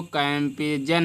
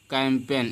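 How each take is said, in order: First: कैंपेजन with the silent G voiced as J; wrong reading. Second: Said in the usual way. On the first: Shown as a demonstration. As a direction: add a "jan" syllable at the end of कैंपेजन. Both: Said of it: "इसको कैंपेजन नहीं पढ़ते हैं".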